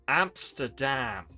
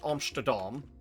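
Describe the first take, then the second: First: It is pronounced with English sounds. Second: It is pronounced with Dutch sounds. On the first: "preparing to be understood by English speakers" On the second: "Not Amsterdam"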